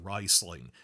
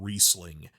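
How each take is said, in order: First: The name is said the newly announced way. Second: The name is said the long-used way. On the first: This is the officially stated pronunciation. The speaker calls it right. "now they're saying it's pronounced Riesling" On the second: This is how fans have said it for years. The speaker calls it wrong. "for twenty years I've been saying Riesling"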